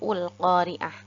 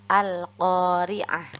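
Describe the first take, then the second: First: The word begins with a u vowel. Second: The word begins with an a vowel. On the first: The speaker calls it wrong. "atau ul-qari'ah" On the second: The speaker calls it right. "hamzah wasalnya juga kita baca fathah"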